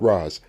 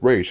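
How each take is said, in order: First: The name sounds like 'raz'. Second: The name sounds like 'rage'. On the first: The speaker calls it wrong. "not Raz" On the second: The speaker calls it right. "that's how you pronounce it"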